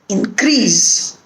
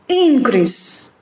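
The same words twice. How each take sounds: First: The stress is on the second syllable. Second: The stress is on the first syllable. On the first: It is used as a verb. "when it is a verb, it is on the second syllable" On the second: It is used as a noun. "when there is a noun or an adjective, the stress is on the first syllable"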